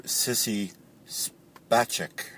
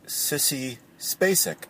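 First: SPACEK said "SPAH-check", slowly; European pronunciation. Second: SPACEK said "SPAY-sick"; usual American pronunciation. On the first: Retold or imitated. Caller quoting the interviewer's odd version, Spacek as SPAH-check. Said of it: "And the interviewer called her". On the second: Shown as a demonstration. Caller giving the name as we know it, Spacek as SPAY-sick. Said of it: "as we know her".

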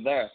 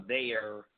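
First: "there" said as "thurr"; "there" with a St. Louis "ur" vowel; St. Louis pronunciation. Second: Said in the usual way. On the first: Shown as a demonstration. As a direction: make "there" rhyme with "her". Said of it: "You say". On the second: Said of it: "You don't say".

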